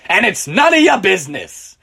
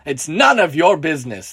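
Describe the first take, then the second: First: Loud, rough-mannered retort; loud, belligerent brush-off; drunken shout. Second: Mild narrated shout; understated angry drunk; shouted response. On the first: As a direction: shout him off like an angry drunk. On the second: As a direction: repeat the retort firmly, half-shouted. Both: A narrator's reading. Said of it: "shouts in response".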